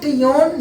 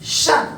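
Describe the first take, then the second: First: It is said with a 't' and 'ee-on' sound. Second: It is said as one short 'shun' sound. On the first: The speaker calls it wrong. "यह टियोन नहीं है" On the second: The speaker calls it right. "यह है शन"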